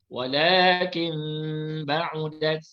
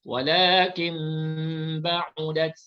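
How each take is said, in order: No difference in how they are said.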